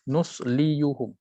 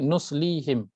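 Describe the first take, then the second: First: The full 'yu' syllable is pronounced before the ending. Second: The 'yu' syllable is dropped, giving a shorter word. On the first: This is the original underlying form. "Asal baris adalah nusliyuhum" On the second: This is the easier form actually used. "Nuslihim lebih mudah daripada nusliyuhum"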